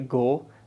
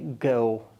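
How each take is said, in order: First: The vowel is one steady sound. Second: The vowel glides as a diphthong. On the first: The speaker calls it wrong. "they would not say go" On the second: The speaker calls it right. "rather they would say go"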